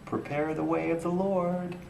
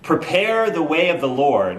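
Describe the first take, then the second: First: It is said timidly, without conviction. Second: It is said boldly, as a proclamation.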